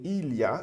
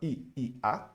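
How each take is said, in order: First: The sounds are joined smoothly into one unit. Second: The sounds are said separately with breaks. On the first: The speaker calls it right. "mas sim il y a. Eu vou juntar" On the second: The speaker calls it wrong. "Eu não vou falar"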